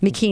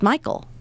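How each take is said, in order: First: The name is said like McKean. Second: The name is said like English Michael. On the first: The speaker calls it right. "McKean is what he says" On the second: The speaker calls it wrong. "how is that not just Michael"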